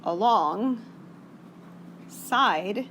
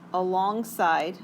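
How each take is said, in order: First: It is said as two separate words. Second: It is said as one smooth word. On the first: The speaker calls it right. "as in two words" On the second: The speaker calls it wrong. "I didn't say that right"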